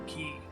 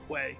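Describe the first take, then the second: First: The word sounds like 'key'. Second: The word sounds like 'kway'. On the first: The speaker calls it right. "I recently learned that word key" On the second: The speaker calls it wrong. "You heard me mispronounce it earlier as Quay"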